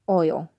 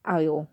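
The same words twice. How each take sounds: First: Said in the usual way. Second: "oil" said as "eye-ul"; rejected pronunciation. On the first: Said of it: "it's like, no". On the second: Shown as a demonstration. Correcting others' accent, "oil" mispronounced as "eye-ul". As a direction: open the vowel of "oil" to "eye". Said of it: "not oil".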